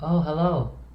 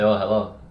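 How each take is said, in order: First: It sounds warm and interested. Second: It sounds cold and uninterested.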